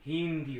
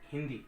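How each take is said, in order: First: The first vowel is drawn out long. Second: The first vowel is short and quick. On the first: The speaker calls it wrong. "बड़ी की मात्रा तो हिंदी" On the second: The speaker calls it right. "ही जल्दी बोला गया, दी समय लिया"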